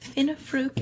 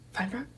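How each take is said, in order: First: The name is said as Finnefruke. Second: The name is said as Feinfrock. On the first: "someone tried to pronounce my last name" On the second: "The most common mispronunciation has to be Feinfrock"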